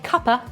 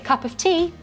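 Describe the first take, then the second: First: The phrase is reduced and run together. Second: The phrase is said in full. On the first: The speaker sounds like a long-time resident. "you sound like you've lived here for a long time" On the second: The speaker sounds perfectly fine. "you sound perfectly fine"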